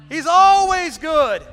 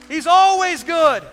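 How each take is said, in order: No difference in how they are said.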